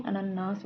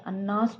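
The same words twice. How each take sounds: First: अनन्नास said "a-nan-nas", three syllables; अनन्नास with long held nn; correct form. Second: अन्नास said as "annas", two syllables; अन्नास with the middle syllable dropped; wrong form. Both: Shown as a demonstration. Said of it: "अनन्नास होता है".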